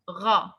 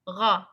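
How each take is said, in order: First: The vowel is said with unrounded lips. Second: The same.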